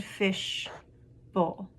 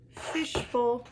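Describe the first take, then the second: First: "fish", pause, "bowl"; syllable by syllable. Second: Said in the usual way. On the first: Shown as a demonstration. Teacher showing two syllables, broken apart. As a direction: say "fish" and "bowl" as separate parts. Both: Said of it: "those all had two syllables".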